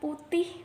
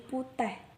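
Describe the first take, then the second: First: The final syllable ends with an 'ih' sound. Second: The final syllable ends with an 'eh' sound. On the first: "setiap kata yang berakhiran ih" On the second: "diucapkan dengan akhiran eh"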